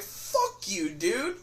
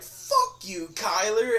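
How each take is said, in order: First: "Fuck you, dude" in a mild mock retort, only a bit higher; first take of the comeback, held back. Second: "Fuck you, Kyler" yelled out much higher. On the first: Retelling his first comeback to Kyler, mild mock retort. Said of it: "my first instinct was just like". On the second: Retold or imitated. Yelling back at the kid who mocked him, retold yell. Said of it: "I yelled it".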